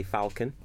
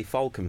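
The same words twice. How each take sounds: First: Falcon said as "fal-con"; falcon with a short "a" as in pal; funnier pronunciation. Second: Falcon said as "fawl-con"; falcon with an "aw" sound; old pronunciation. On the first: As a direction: open the first vowel of falcon to "fal". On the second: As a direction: round the first vowel of falcon to "fawl". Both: Shown as a demonstration. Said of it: "it's actually funnier to say falcon".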